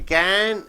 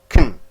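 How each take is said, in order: First: The word is said with a full vowel. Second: The word is said with a weak vowel. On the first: "These are stressed"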